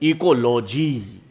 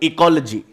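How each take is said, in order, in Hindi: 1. आखिरी हिस्सा लंबा खींचा जाता है। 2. पहला हिस्सा लंबा है, आखिरी छोटा। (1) "इकोलॉजी नहीं" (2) "प्रीफिक्स को लंबा खींचते हैं और सफिक्स को एकदम छोटा कर देते हैं"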